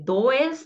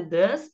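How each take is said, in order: First: DOES read letter by letter in Portuguese, "do-es"; spelling pronunciation. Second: Said in the usual way. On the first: Shown as a demonstration. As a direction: say "does" as written, two syllables, "do-es". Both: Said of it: "Você vai escrever does".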